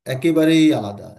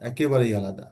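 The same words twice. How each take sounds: First: "একেবারেই" pushed out louder, falling tune; stress on একেবারেই. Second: Said in the usual way. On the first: Shown as a demonstration. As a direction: lean hard on "একেবারেই". ("একেবারেই" শব্দে জোর দিয়ে) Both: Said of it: "পুরোপুরি ভিন্ন".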